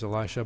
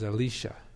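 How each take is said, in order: First: It is said the familiar English way. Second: It is said closer to the Hebrew. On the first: "no longer as Elisha" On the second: "but as Elisha. That's actually the bit closer pronunciation to the Hebrew"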